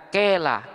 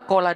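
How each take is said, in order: First: The long vowel leans toward an 'e' sound. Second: The long vowel is a pure open 'a'. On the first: The speaker calls it wrong. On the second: The speaker calls it right.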